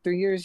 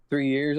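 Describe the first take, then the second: First: Loud, higher disbelieving question; raised-pitch mock astonishment; incredulous echo. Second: Loud, matter-of-fact reply; blurted statement, falling close; retold answer. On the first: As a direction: throw it back in disbelief. Throws the answer back in disbelief. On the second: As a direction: answer firmly at usual pitch. Retold answer, then repeated back.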